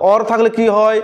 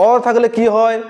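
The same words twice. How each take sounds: The two takes are said the same way.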